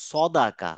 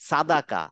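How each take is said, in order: First: সদাকা slow, with a rounded saw; heavy round opening on সদাকা; correct heavy sad. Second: সাদাকা with an open saa; wrong light sad. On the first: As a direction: say সদাকা slowly, full-mouthed at the start. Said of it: "বলবো সদাকা". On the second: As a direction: say সাদাকা with a thin first vowel. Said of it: "আমরা বলবো না যে". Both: Shown as a demonstration.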